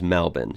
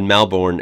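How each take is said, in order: First: Melbourne shortened to MEL-bin; Australian pronunciation. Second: Melbourne as spelled, MEL-born with an R; American pronunciation. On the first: Vlogger correcting his American habit, Melbourne as MEL-bin. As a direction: say Melbourne as "MEL-bin", second vowel reduced. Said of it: "but it is Melbourne". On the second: Vlogger showing his American first guess, Melbourne as MEL-born. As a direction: say Melbourne as "MEL-born", full second syllable. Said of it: "the American in me would have said". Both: Shown as a demonstration.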